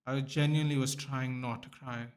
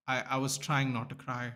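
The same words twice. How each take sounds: First: Leans hard on "genuinely", drawing it out; "genuinely" pressed for sincerity; stress on genuinely. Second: Said in the usual way. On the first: Real, not acted. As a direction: insist with "genuinely".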